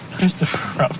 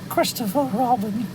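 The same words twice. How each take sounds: First: It is spoken in a normal chest voice. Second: It is spoken in a high falsetto voice. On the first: "if I do it non-falsetto" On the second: "I'm doing it falsetto though"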